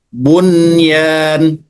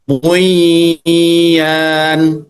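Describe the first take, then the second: First: The n before the y is pronounced clearly. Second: The n before the y is dropped. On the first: The speaker calls it right. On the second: The speaker calls it wrong. "Nggak boleh dibaca"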